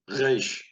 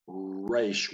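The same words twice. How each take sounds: First: The R is made at the back of the throat. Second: The R is made with rounded, pursed lips. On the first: The speaker calls it right. "from the back of the throat" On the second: The speaker calls it wrong. "where we look like we're kissing"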